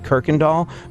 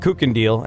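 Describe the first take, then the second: First: The name begins with a 'kirk' sound. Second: The name begins with a 'kook' sound. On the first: This is how locals say the name. The speaker calls it right. "there's a street called Kirkendall" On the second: This is how an outsider reads the spelling. The speaker calls it wrong. "you're not from here, you suck"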